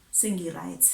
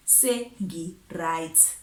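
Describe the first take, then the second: First: Said in the usual way. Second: SENGI RIGHT drawn out very slowly; slow, emphatic repeat. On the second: Retold or imitated. Telling the ex she is done, "Sengi right" slow and emphatic. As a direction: stretch out "Sengi right", word by word.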